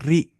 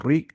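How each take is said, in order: First: "री" with a fine, light R; Tajweed light ra on "री"; light thin R. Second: "री" with a thick, rounded R; the mistaken full-mouthed "री"; wrongly heavy R. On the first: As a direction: say "री" thinly, tongue forward, clear ee. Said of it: "हल्की आवाज़ निकालिए". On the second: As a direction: say "री" heavy, like o-rree. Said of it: "री नहीं". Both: Shown as a demonstration.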